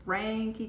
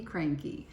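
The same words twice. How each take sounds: First: Cranky said a bit higher and stretched; drawn-out cranky. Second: Cranky dropped low with a falling end. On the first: Telling her viewers she's cranky, stretched Cranky. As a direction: lean into Cranky, pitched up. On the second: Repeating to viewers, low falling cranky. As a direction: let cranky sink down. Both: Shown as a demonstration. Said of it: "I am cranky".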